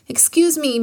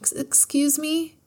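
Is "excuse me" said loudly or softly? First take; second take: loudly; softly. First: It is said loudly and forcefully. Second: It is said quietly and softly. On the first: The speaker is being brave and wants to be heard. The speaker calls it right. "he bellowed" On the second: The speaker is timid and hesitant. The speaker calls it wrong. "Kai said in a soft voice"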